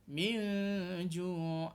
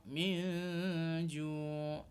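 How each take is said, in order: The two takes are said the same way.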